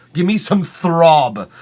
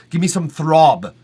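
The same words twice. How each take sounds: First: Louder and slow, emphatic. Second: Said in the usual way. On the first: Real, not acted. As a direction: lean in hard on it. Repeats line louder.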